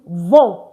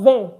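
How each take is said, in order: First: The nasal vowel sounds like the one in 'vent'. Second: The nasal vowel sounds like the one in 'vin'. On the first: The speaker calls it right. "it is vend" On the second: The speaker calls it wrong. "it's not vin"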